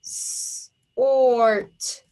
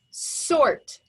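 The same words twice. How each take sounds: First: SORT split into a long hissed "s", then "ort"; segmented phonics demo of S-ort; tapped out. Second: Said in the usual way. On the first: Shown as a demonstration. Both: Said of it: "Tap it out".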